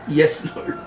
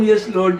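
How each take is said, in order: First: "Yes, Lord" with a big rise on "Lord"; sing-song yes lord. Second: Said in the usual way. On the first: Shown as a demonstration. Preacher waking a dozing class with a lilting call. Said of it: "Pag sinabi kong, "Yes, Lord". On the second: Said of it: "Pag sinabi kong".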